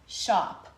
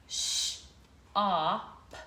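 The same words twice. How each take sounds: First: "shop" said whole and firm, falling; blend it. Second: "Sh-op" split with a rising drawn short o; sound it out. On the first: Teacher blending the word for the class. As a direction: say "shop" quickly. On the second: Teacher sounding out shop for children. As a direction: stretch "Sh-op" into two parts. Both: Shown as a demonstration. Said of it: "the short O sound".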